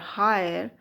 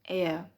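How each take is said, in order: First: It starts with an h and has two syllables. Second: It starts with a vowel, like air. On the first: The speaker calls it wrong. "or higher" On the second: The speaker calls it right. "it is pronounced as heir"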